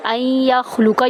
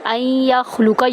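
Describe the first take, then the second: First: The n is silent and merges into the y. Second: The same.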